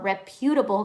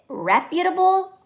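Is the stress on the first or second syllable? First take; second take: second; first. First: The stress is on the second syllable. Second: The stress is on the first syllable. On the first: "capital U" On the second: "R E capital R E P"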